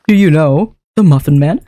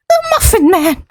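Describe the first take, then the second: First: Said in the usual way. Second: Squeaky high Muffin Man; high-pitched voice. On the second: Shown as a demonstration. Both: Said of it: "hits the right area".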